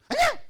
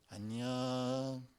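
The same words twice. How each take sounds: First: It is said in a hostile, picking-a-fight tone. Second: It is said in a soft, friendly tone.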